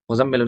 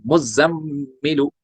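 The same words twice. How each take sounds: First: मुज़म्मिलु said quickly, mm not held; wrong reading. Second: मुज़म्मिलु very slow, mm hummed long; correct reading. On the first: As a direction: rush मुज़म्मिलु without ghunna. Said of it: "आधे पढ़ते हैं मुज़म्मिलु". (गलत तरीका, बिना गुन्ना) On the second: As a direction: stretch मुज़म्मिलु with ghunna. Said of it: "मुज़म्मिलु नहीं". (सही तरीका, गुन्ना के साथ) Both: Shown as a demonstration.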